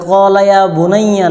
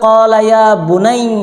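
First: The last word ends with a full 'yya' syllable. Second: The last word is cut short, ending in 'i'. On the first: The speaker calls it wrong. "এটা কলা ইয়া বুনাইয়া না" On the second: The speaker calls it right. "ওয়াকফা করতে হলে কলা ইয়া বুনাই এভাবে ওয়াকফা করতে হবে"

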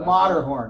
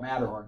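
First: The name has a non-American, original pronunciation. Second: The name has an American English pronunciation. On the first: This is the name's original form. "But it's the Matterhorn" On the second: This is how people in America say it. "We call it Matterhorn because we're in America"

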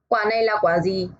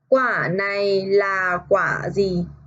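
First: The sentence is read fast. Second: The sentence is read slowly. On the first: "그 다음에 빠르게 읽어요" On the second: "첫 번째 천천히 읽고"

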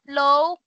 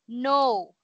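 First: The word begins with an L sound. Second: The word begins with an N sound. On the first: The speaker calls it wrong. "Not low" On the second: The speaker calls it right. "but no"

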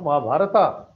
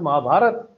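First: The word ends with an added final 'a' vowel. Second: The word ends on the consonant, no final vowel. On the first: The speaker calls it wrong. "not Mahabharata" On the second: The speaker calls it right. "It is Mahabharat"

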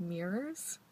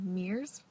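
First: The word has two syllables with both R sounds. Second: The word sounds like one syllable, meers. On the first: The speaker calls it right. "There's two sets of R's in there" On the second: The speaker calls it wrong. "like M-E-E-R-S"

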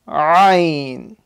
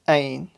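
First: The word starts with a sound from the throat. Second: The word starts with a plain vowel. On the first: The speaker calls it right. "say it from the middle of the throat" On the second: The speaker calls it wrong. "So if you say ain, the teacher will tell you that you got it wrong"

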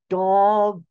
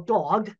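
First: The word is said slowly, each sound enunciated. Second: The word is said at a normal speed.

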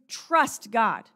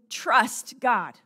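No difference in how they are said.

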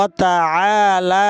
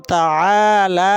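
First: Two vowels are drawn out long. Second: Two vowels are drawn out long.

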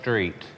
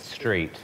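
First: The word begins with an 'sh' sound. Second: The word begins with a plain 's' sound. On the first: The speaker calls it wrong. "It's not street. ... There's no H" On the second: The speaker calls it right. "It's street"

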